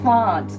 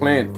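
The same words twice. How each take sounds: First: It is said in a South Australian accent. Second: It is said in a Queensland accent. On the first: "They would say, "Why do you say it like that? It's a plant" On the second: "And I say plant"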